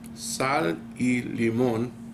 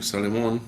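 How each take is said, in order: First: The three words are said separately and clearly. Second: The words run together quickly into one word.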